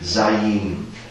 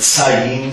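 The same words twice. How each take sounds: First: It begins with a voiced, buzzing S sound. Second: It begins with a voiceless, hissing S sound. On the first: The speaker calls it right. "als stimmhaftes S gesprochen" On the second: The speaker calls it wrong. "Also nicht Sayin"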